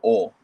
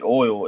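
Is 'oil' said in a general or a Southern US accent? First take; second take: Southern; general. First: Oil is said with a reduced Southern pronunciation. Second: Oil is said with a full, general pronunciation. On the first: This is how Southerners say it. "we say oil. We don't pronounce the the full pronunciation of the word" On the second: This is how other people say it. "when people ask us how do you say oil"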